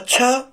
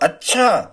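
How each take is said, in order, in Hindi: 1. यह जल्दी से और विस्मयादिबोधक अनुतान में कहा गया है। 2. इसमें प्रश्नसूचक अनुतान है। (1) "बहुत जल्दी बोलेंगे अच्छा, कोई घटना घट गई, विस्मयादि बोधक आश्चर्य" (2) "प्रश्नवाचक होगा"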